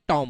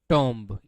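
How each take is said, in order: First: The word ends on m with no b. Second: The word ends with an audible b sound. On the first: The speaker calls it right. "टॉम होता है" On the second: The speaker calls it wrong. "ये टॉम्ब होता ही नहीं है"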